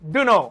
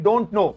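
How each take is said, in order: First: The words are blended, the t sound dropped. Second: The first two words are contracted into one. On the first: "मिलाकर बोल सकते हैं native speaker style में" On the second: "short में बोल देते हैं"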